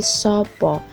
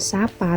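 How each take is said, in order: First: The vowels are pronounced as a rounded o. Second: The vowels are pronounced as an open a. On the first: The speaker calls it right. "tapi sopo" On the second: The speaker calls it wrong. "bukan sapa"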